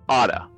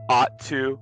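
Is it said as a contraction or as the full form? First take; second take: contraction; full form. First: The words are blended into one reduced word. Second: Both words are said fully and separately. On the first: "informal contractions" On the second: "ones that end with to"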